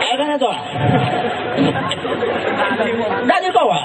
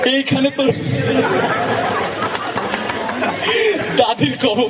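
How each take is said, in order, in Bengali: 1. দুর্বল, বুড়ো গলায় আবৃত্তি করা হচ্ছে। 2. হাসতে হাসতে আবৃত্তি করা হচ্ছে। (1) "সে একজন বৃদ্ধ, আশি বছর বয়স হয়েছে" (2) "সে একটু হাসে বেশি"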